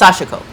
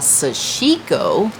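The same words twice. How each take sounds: First: All syllables are said evenly without stress. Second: The middle syllable is stressed. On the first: The speaker calls it right. "It's sashiko. Everything is no emphasis" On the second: The speaker calls it wrong. "what we would call sashiko, putting the emphasis on the chic"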